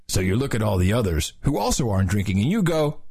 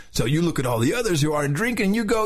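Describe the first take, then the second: First: Said in the usual way. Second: Surfer narrator, pitched up; slightly high surfer-dude delivery. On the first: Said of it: "should I do both voices?". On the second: Shown as a demonstration. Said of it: "the whole thing in a surfer's voice".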